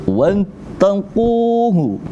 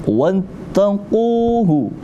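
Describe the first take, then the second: No difference in how they are said.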